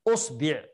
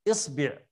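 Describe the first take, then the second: First: The word begins with an u vowel. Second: The word begins with an i vowel. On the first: "نبدأ بالضم" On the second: "الكسر"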